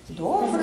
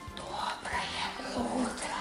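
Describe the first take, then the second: First: It is said in a normal voice. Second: It is whispered very quietly.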